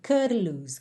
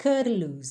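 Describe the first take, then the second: First: The t is a quick tongue tap. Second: The t is a quick tongue tap.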